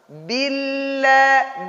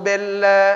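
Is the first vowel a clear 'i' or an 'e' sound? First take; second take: clear i; e. First: The first vowel is a full, short 'i'. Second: The first vowel sounds like an 'e'. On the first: The speaker calls it right. "kita sempurnakan harkat kasronya tanpa kita panjang" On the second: The speaker calls it wrong. "ada orang membaca bella"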